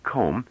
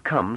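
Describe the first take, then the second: First: "comb" with a rounded long O, for come; "comb", the foreigner's version of come. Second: Said in the usual way. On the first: Shown as a demonstration. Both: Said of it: "She made come sound like comb".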